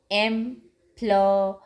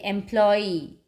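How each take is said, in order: First: "employee" in three parts, em, ploy, ee; syllable by syllable. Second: Said in the usual way. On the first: Shown as a demonstration. Teacher counting syllables for children, "employee" broken in three. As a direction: pause between each syllable of "employee". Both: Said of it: "three syllables".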